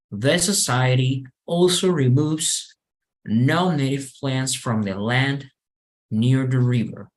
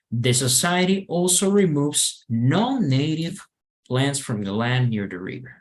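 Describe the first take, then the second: First: No single word gets special emphasis. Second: The pitch rises on the word non-native.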